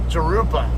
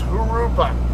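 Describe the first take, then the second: First: The first sound is an English J sound. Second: The first sound is an H sound. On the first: The speaker calls it wrong. "they always pronounce this uh, street Jurupa ... it's not how you pronounce it" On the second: The speaker calls it right. "The J's are pronounced like an H in Spanish"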